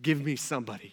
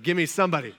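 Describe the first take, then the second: First: Said in the usual way. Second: Louder, more insistent mock prayer; mock desperate. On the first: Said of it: "you're praying to God". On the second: Single person praying to God for a partner, mock desperate. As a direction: play a mildly desperate plea. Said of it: "depends on how desperate we are".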